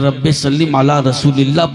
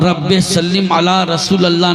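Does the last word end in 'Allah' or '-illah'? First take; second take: -illah; Allah. First: The last word is said as Rasulillah. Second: The last word is said as Rasool Allah. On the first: The speaker calls it right. "पढ़ना वाजिब है" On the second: The speaker calls it wrong. "नहीं"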